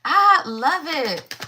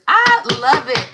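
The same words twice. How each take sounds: First: Slow, savoring, stretched I love it; drawn out. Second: Higher, louder burst of delight; light up on the words I love it. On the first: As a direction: stretch each word out and savor it. Savoring the same card again. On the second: Card reader delighted by card. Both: Real, not acted.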